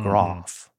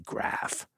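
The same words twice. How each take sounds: First: The word is said in a posh RP accent. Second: The word is said in a plainer non-London accent. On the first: "sounded much more BBC received pronunciation" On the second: "you're not in London, you can just say graph"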